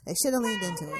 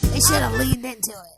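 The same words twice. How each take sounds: First: It is said at a normal speed. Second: It is said slowly and deliberately.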